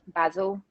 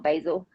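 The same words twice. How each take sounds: First: It is said the British way. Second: It is said the non-British way. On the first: The speaker calls it right. "we say Basil" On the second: The speaker calls it wrong. "not Basil in the U K"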